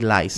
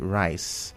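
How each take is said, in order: First: The word begins with an l sound. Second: The word begins with an r sound. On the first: "especially people from Anambra State" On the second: "whenever they say rice"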